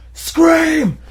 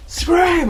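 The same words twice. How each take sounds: First: Mock guard shouting, much higher and louder; retold yell. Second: Mock guard shouting a repeat, much higher and louder; retold yell. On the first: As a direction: bark the order like a haunted-house guard. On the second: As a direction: yell the command again, just as hard. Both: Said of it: "he yells".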